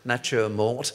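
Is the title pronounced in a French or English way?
English. The title is pronounced with an English accent. "it's actually an English film"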